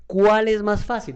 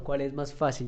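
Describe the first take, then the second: First: ¿Cuál es más fácil? asked higher and louder, slow, punching Cuál; emphatic question. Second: Said in the usual way. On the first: Shown as a demonstration. Teacher to students, posing the big question loudly. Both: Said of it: "esa es la pregunta".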